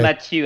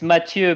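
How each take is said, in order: First: The name is said like English Matthew. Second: The name is said with a French pronunciation. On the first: The speaker calls it wrong. "so it's not Mathieu as like M A T T H E U" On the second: The speaker calls it right. "it's Mathieu because it's French"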